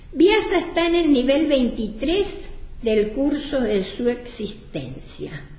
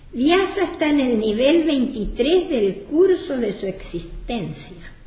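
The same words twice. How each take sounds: The two takes are said the same way.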